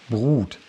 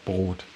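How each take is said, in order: First: The vowel is pronounced as an 'oo' sound. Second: The vowel is pronounced as an 'oh' sound. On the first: It imitates an Arabic speaker's German. "Deutsch mit U statt O" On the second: It is the standard German pronunciation. "statt O"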